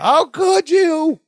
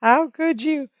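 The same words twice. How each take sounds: First: High, slow mock scream. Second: A light mock shriek; mock scream. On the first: Jennifer screaming over the phone, high drawn-out mock wail. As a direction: drag out a put-on shriek. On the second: Jennifer screaming over the phone, light high mock wail. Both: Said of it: "You could hear her scream".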